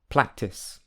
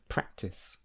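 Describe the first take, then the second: First: An l sound is used instead of r. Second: An r sound is used as normal. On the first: The speaker calls it wrong. "it's common to hear practice instead of" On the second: The speaker calls it right. "instead of practice"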